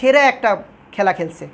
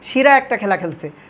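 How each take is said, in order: First: The first word is pronounced 'shera'. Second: The first word is pronounced 'shira'. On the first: "বলে সেরা একটা খেলা খেলছে" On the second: "সেরাকে অনেকে শিরাও বলে"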